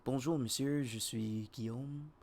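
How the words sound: It is said softly in a France French accent.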